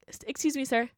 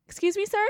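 First: Said in the usual way. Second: Higher, rising call for attention; pointed rising call. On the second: Retold or imitated. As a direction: call after him as he walks off. Calling after a stranger again.

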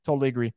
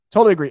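First: Said in the usual way. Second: Louder second take, really meaning Totally; emphatic agreement. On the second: Real, not acted. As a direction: hit Totally hard, then let agree drop.

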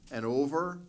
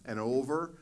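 No difference in how they are said.

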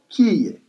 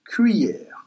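First: "cuillère" as Creole 'kee-yeh', no r; Creole pronunciation. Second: "cuillère" as French 'kwee-yehr'; French pronunciation. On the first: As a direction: say "cuillère" as kee-YEH, open ending. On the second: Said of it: "And in French". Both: Shown as a demonstration.

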